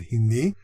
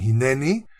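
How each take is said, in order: First: The word is said with two syllables. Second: The word is said with three syllables. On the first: The speaker calls it right. "I pronounce it hini" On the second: The speaker calls it wrong. "a grammatical error"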